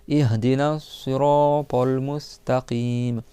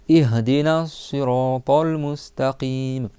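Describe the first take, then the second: No difference in how they are said.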